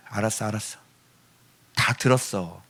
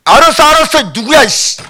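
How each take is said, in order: First: Low, very soft acknowledgement; soft giving-in. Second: High, loud, impatient reply; irritated outburst. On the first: God answers a child who cried five minutes, softly giving in. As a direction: hush it out with a resigned tenderness. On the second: God answers someone bawling in His face, irritated. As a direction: cut off the wailer in mock annoyance. God startled by wailing up close. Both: Acted.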